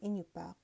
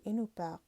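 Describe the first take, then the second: First: The middle consonant is an 'ny' sound. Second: The middle consonant is a plain 'n' sound. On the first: This is the Malimiut dialect form. "in the Malimute dialect, which is the region that I'm from, we say" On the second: This is the Seward Peninsula dialect form. "they don't have the nya"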